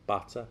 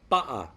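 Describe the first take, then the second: First: The middle consonant is a clear T sound. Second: The middle consonant is a glottal stop.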